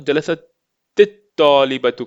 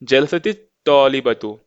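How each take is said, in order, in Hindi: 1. पहला शब्द एक सादे 't' व्यंजन पर खत्म होता है। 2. पहला शब्द एक जोड़े गए 'i' स्वर के साथ खत्म होता है।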